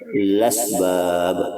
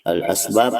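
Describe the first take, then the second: First: The vowel moves onto the l, without a stop. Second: The glottal stop before the vowel is kept. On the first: "kepada lasbab" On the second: "daripada al-asbab"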